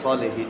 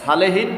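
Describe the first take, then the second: First: The first syllable is heavy and full. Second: The first syllable is light and thin. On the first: The speaker calls it right. "সলেহীন হবে" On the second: The speaker calls it wrong. "সালেহীন না হয়ে"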